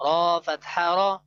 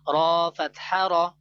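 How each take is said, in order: Both takes have the same delivery.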